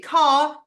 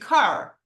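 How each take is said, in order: First: It is said in a British accent. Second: It is said in an American accent.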